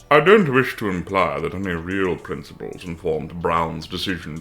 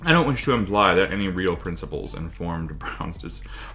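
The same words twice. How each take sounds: First: It is read in a put-on cartoon villain voice. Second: It is read in a plain, natural voice.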